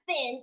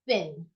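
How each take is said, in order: First: It begins with a hard 't' sound. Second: It begins with a soft 'th' sound. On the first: The speaker calls it wrong. "you can't pronounce it as thin is because t- you're putting your tongue behind your teeth, but that's wrong" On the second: The speaker calls it right. "you put it in between your teeth so that you can say thin"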